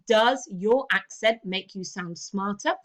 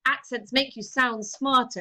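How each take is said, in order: First: Slow question, rising on "smarter"; interrogative. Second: Stated outright, falling on "smarter"; declarative statement. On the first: Teacher running through the interrogative, slow with "smarter" rising. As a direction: ask it slowly, lifting "smarter" at the end. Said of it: "our interrogative". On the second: Teacher showing a class the declarative framing, falling on "smarter". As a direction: let "smarter" drop as a settled fact. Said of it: "framed like that declarative". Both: Shown as a demonstration.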